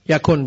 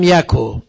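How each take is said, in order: First: The word ends with a final n sound. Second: The word ends without a final n sound. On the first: "یکن بوده" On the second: "جایز نونش بیفته"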